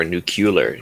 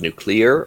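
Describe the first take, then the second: First: "nuclear" said as NOO-kyuh-ler; Simpsons-style pronunciation. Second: Said in the usual way. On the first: Shown as a demonstration. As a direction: mispronounce "nuclear" as "nucular", Homer-style. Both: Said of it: "depends if you listen to The Simpsons".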